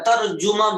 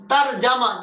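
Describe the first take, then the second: First: ترجمہ with u after j, "tarjuma"; Urdu pronunciation. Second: ترجمہ with a after j, "tarjama"; zabar reading. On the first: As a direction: say ترجمہ as tar-ju-ma. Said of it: "تو اردو میں ترجمہ بھی ہوتا ہے". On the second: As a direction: open ترجمہ to tar-ja-ma. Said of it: "اس کا زبر کے ساتھ پڑھو". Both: Shown as a demonstration.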